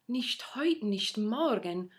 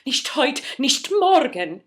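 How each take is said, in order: First: It sounds puzzled, like a question. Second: It sounds alarmed and anxious.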